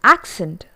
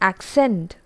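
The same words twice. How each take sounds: First: The stress is on the first syllable. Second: The stress is on the second syllable. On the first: It is used as a noun or adjective. "when it has been used as noun or adjective" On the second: It is used as a verb. "when it has been used as verb"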